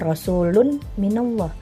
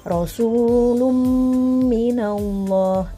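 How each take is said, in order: First: The n sound is kept before the m. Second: The n sound merges into a held nasal m. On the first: The speaker calls it wrong. "jangan rasulun minallah" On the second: The speaker calls it right. "tapi rasulum minallah itu. Karena menjadi hukum idgham bigunnah ya, melebur"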